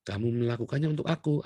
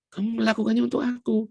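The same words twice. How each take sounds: First: Said in the usual way. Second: Much higher and louder, punching melakukannya; ringing declaration of the verse; emphatic repeat. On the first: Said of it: "verse quoted, first plain take". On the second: Shown as a demonstration. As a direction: proclaim melakukannya as the point. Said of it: "verse repeated with force".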